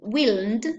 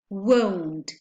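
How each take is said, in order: First: The vowel is a short i sound. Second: The vowel is an o diphthong. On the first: The speaker calls it wrong. "we won't say they will, willn't" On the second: The speaker calls it right. "we say they won't with the uh, with the diphthong o"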